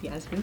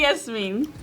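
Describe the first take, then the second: First: Yasmin as YAZ-min, first vowel like "jazz"; American pronunciation. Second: Yasmin as YES-meen, first vowel like "yes"; parents' pronunciation. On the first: Showing the American way of her name, Yasmin said YAZ-min. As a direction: say Yasmin with a flat A as in "cat". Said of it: "the American way is Yasmin". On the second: Giving her parents' version of her name, Yasmin said YES-meen. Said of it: "my parents call me Yasmin". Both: Shown as a demonstration.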